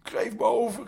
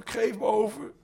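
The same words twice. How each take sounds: First: High, loud cry for mercy; shouting. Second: High, loud cry rising at the end; shouting. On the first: Habuli cries out to the night ghosts, high pleading shout. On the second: Habuli pleads with his attackers, rising high shout. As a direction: shout it high as if about to faint. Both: Acted. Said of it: "schreeuwde Habuli".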